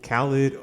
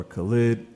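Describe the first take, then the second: First: Khalid with the stress up front, KAL-id; alternate pronunciation. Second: Khalid with the stress at the end, kuh-LEED; alternate pronunciation. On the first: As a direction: say Khalid as KAL-id, first syllable strong. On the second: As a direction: say Khalid as kuh-LEED, second syllable strong. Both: Shown as a demonstration. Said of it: "I don't know how to pronounce it".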